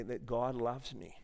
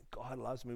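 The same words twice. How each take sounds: First: Said in the usual way. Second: Whispered to himself, unvoiced; soft real whisper of wonder. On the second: Real, not acted. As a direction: breathe it as a private realisation.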